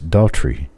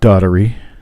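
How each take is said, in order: First: The name is said with two syllables. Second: The name is said with three syllables. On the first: The speaker calls it right. "It's Daughtry. ... Just two syllables" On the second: The speaker calls it wrong.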